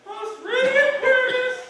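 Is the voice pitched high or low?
high. It is said in a higher voice.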